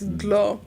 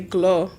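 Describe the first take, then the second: First: The word begins with a D sound. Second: The word begins with a G sound. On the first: This is the actual form of the word. The speaker calls it right. "but it's actually with a D" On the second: This is how it was said growing up. The speaker calls it wrong. "we used to say glow growing up with the G"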